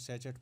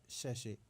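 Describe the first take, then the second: First: It has a 'ch' sound and a final t. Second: It ends with a 'shay' sound, no final t. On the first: The speaker calls it wrong. "कुछ लोग इसको सैचेट पढ़ते हैं" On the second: The speaker calls it right. "जो अगला word है ये है सैशे"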